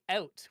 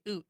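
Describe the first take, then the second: First: The vowel glides like 'ow'. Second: The vowel is a pure 'oo' sound. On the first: This is how the speaker's own group says it. The speaker calls it right. "We say out" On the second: This is how people in the maritime provinces say it. The speaker calls it wrong. "Oot is like um maritime"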